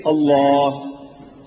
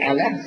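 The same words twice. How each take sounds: First: Long, slow "Allah" with dark L, "ol-LAAAH"; correct Allah pronunciation. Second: "Allah" with front "a" as in "cat", light L; thin-vowelled, English-style "Allah"; mispronounced Allah. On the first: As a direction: draw "Allah" out on a back "aw" sound. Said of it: "say Allah". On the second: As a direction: say "Allah" short as "AL-la". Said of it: "but don't say Allah". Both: Shown as a demonstration.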